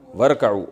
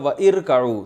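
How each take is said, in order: First: Wa joins straight onto rka'u without the vowel. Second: The i vowel after wa is pronounced separately. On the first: This is how the word is actually recited. "तो पढ़ेंगे क्या वरकऊ" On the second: This is the underlying form of the word. "असल में था व इरकऊ"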